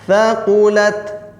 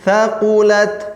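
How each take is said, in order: The two takes are said the same way.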